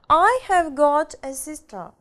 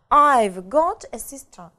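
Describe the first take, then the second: First: 'Have' is said in full as its own word. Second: 'Have' is shortened and joined onto 'I'. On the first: "Полная форма" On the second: "наша будет сокращенная форма"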